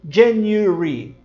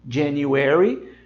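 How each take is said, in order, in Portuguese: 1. Diz-se com sotaque britânico, uma vogal omitida. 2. Diz-se com sotaque americano, todas as vogais plenas. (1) "os britânicos dizem January. Eles praticamente cortam o som deste A" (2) "Os americanos dizem January"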